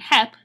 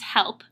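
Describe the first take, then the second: First: The L sound before the P is dropped. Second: The L sound before the P is pronounced. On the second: "standard English"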